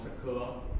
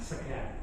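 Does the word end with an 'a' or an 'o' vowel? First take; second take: o; a. First: The word ends with an 'o' vowel. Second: The word ends with an open 'a' vowel. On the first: This is the common way of saying it. "Kalau kita bilang sego" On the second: This is how people from one region say it. "orang Tegal bilangnya"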